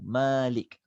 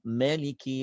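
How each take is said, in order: First: The first vowel is said long. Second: The first vowel is said short. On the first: It is read as owner of the day. "Kita baca panjang Malik" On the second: It is read as king of the day. "dia baca pendek je"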